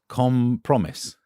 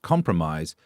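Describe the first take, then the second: First: The end of the word sounds like 'promise'. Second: The word is said the usual way.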